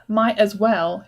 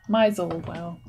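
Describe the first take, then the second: First: Each word is said clearly and separately. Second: The words are squashed together into one blur. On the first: "where it says might as well here" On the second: "It's just squashed together"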